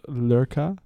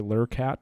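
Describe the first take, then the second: First: The word ends without a t sound. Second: The word ends with a clear t sound.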